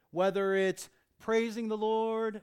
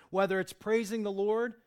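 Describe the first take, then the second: First: Slower, loud, "praising" stretched and stressed; "praising" drawn out and hammered. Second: Loud preaching, weight landing on "Lord"; "Lord" punched loud at the end; stress on Lord. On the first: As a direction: lean into "praising" slowly. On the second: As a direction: hit "Lord" hard. Repeated phrase, stress on Lord. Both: Acted.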